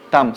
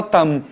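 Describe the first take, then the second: First: Said in the usual way. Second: Там ending with lips fully closed on a clear M, no nasal vowel; closed-mouth M. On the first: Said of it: "Só que M não é nasal". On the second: Shown as a demonstration. Teacher showing Brazilians how to end там: lips closed on M. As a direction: say там and shut the lips hard on the M, not a nasal ã. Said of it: "Tem que fechar a boca e falar там".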